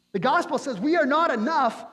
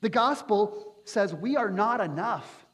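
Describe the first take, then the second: First: Louder emphatic repeat. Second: Said in the usual way. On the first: Shown as a demonstration. Preacher repeating to the congregation, louder and emphatic. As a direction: repeat it louder and higher, hammering it home.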